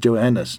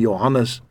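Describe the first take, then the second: First: The name is said with English pronunciation. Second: The name is said with Afrikaans pronunciation. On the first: "deur Engelse uitgespreek word as Johannes" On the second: "die Afrikaanse naam Johannes"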